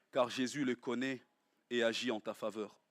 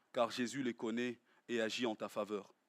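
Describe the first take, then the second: Both takes have the same delivery.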